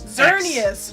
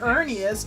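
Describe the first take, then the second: First: The name begins with a Z sound. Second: The name begins with a vowel sound. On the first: The speaker calls it right. "Xerneas, not" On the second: The speaker calls it wrong.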